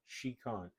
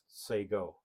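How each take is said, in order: First: It is read as spelled, like she-con. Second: It is said like say-go, with no k. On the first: The speaker calls it wrong. "that's not really how you say it" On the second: The speaker calls it right. "actually pronounced Sego"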